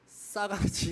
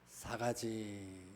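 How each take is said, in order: First: The first consonant is tense and forceful. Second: The first consonant is plain and gentle. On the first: It sounds like an insult about rudeness. The speaker calls it wrong. "세게 발음하면 안 돼요. 싸가지 이렇게 어, 발음하지 마시고" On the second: It simply means four things. The speaker calls it right. "우리는 부드러운 사람들이잖아요. 어, 그러니까 우리가 알아야 할 사 가지 이렇게"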